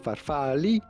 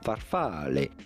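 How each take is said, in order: First: The word ends in an 'ee' vowel. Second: The word ends in an 'eh' vowel. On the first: The speaker calls it wrong. "Do not say farfalli" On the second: The speaker calls it right. "but rather farfalle"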